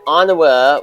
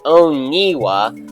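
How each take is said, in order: First: The middle syllable has an 'ah' vowel. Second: The middle syllable has an 'ee' vowel. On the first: This is the name's real pronunciation. The speaker calls it right. "as it actually is" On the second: This is a mistaken belief about the name. The speaker calls it wrong. "I used to think that Onawa was pronounced Oniwa"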